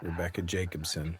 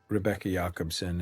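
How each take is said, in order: First: The name is said with an English pronunciation. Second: The name is said with a Swedish pronunciation. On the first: "we would say it in English" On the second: "in Swedish it would be"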